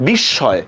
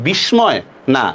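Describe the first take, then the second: First: বিস্ময় with m silent and sh doubled, /bishshoy/; correct pronunciation. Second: বিস্ময় with a clear m, /bishmoy/; বিস্ময় mispronounced with m; wrong pronunciation. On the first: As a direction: say বিস্ময় the right way. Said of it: "উচ্চারণটা কিভাবে?". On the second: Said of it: "উচ্চারণটা কি হবে". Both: Shown as a demonstration.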